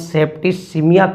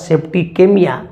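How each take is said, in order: First: The middle c is said with an s sound. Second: The middle c is said with a k sound. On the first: "अगर सी के बाद यहाँ पर अगर spelling में ई है तो इसको हम सेप्टिसिमिया कहते" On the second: "अगर कोई ये यहाँ पे डालता है तो उच्चारण होगा सेप्टिकेमिया"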